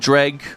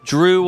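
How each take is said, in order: First: The word ends with a hard g sound. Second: The word ends in an oo vowel sound. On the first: "that voice N P C earlier talked about it being Dreg" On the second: "I've always said Drew"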